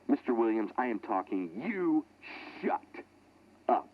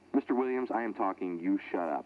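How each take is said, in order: First: It is said angrily, imitating Reeder. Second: It is read out flatly, without feeling.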